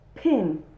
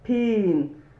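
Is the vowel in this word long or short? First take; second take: short; long. First: The vowel is short and sharp. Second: The vowel is long, like ee. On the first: The speaker calls it right. "it's a short vowel" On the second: The speaker calls it wrong. "not pin"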